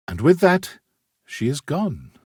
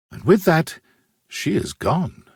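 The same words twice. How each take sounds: The two takes are said the same way.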